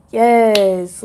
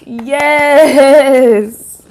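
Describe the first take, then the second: First: Firm, loud mock cheer of approval; acted crowd approval. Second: Long, drawn-out, very loud yes; acted crowd cheer. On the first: People reacting when you pop out, emphatic approval. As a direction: punch out a loud yes as an admiring crowd. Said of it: "people, it's like". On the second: People cheering as you pop out, elated drawn-out cheer. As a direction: stretch it into a big hyped-up cheer. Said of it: "That's how they feel".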